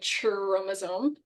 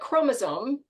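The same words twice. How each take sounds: First: The word begins with a ch sound. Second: The word begins with a k sound. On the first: The speaker calls it wrong. "like the ch, like we don't say chromosome" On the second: The speaker calls it right. "pronounced as a, like, similar to the K"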